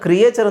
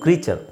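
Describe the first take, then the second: First: It has three syllables, with a separate 'ay' sound. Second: It has two syllables, with a long 'ee' sound. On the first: The speaker calls it wrong. "ಕ್ರಿಯೇಚರ್ ಅಂತ ತುಂಬ ಜನ ಹೇಳ್ತಾರೆ, ಅದು it's wrong" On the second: The speaker calls it right. "ಕ್ರೀಚರ್ ಅಂತಲೇ ಹೇಳಬೇಕು"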